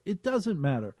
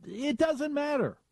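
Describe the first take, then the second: First: Said in the usual way. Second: Mock squeaky repeat. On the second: Shown as a demonstration.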